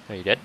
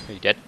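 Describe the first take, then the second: No difference in how they are said.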